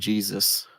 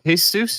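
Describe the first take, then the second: First: The name is pronounced the English way. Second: The name is pronounced the Spanish way.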